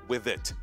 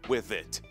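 First: The final T is fully pronounced and released. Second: The same.

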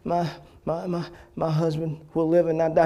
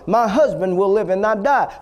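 First: It is said timidly, stammering on the first word. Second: It is said firmly, with confident authority.

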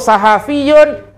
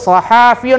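First: The vowel after the h is short. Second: The vowel after the h is long. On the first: The speaker calls it right. "yang betul sahafiyun tanpa alif dan tanpa syaddah" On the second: The speaker calls it wrong. "Dia sebut sahafiyun ada alif, salah"

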